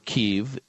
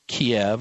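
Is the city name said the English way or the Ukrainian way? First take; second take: Ukrainian; English. First: The name is said the Ukrainian way. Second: The name is said the usual English way.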